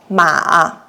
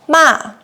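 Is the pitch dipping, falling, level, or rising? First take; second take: dipping; falling. First: The pitch dips low, then rises. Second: The pitch falls sharply from high. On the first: It means horse. "with the third tone" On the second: It means scold. "we use the fourth tone"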